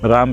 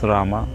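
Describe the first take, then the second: First: The word ends on a consonant, no final vowel. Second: The word ends with an added ah vowel. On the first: "Ram becomes Rama" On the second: "Ah sound comes because of the limitation of English language"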